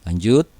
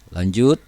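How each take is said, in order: Both takes have the same delivery.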